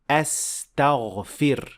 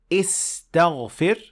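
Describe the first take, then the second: First: The word begins with an 'a' vowel. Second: The word begins with an 'i' vowel. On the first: The speaker calls it right. "but you say a" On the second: The speaker calls it wrong. "you don't say istaghfir"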